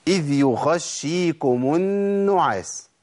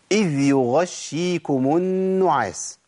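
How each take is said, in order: First: غ في "يغشيكم" تخرج بنفس قريبة من خاء; breathy ghain error. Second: غين في "يغشيكم" مجهورة بلا نفس; correct voiced ghain. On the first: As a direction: let air leak on "يغشيكم" so غ turns to خ. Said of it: "الخطأ فين؟". (غين مهموسة قريبة من الخاء) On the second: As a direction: hold "يغشيكم" with a voiced, breathless غ. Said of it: "طيب ده الصواب". (غين مجهورة في "يغشيكم") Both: Shown as a demonstration.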